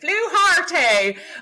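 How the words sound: It is said with an Irish accent.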